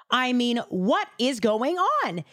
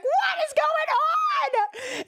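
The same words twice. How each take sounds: First: Said in the usual way. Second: High, slow, drawn-out mock shout of panic; hammed-up panicked high yell; freaking out. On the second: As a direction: yell it like your arm just turned leprous. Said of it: "He starts freaking out".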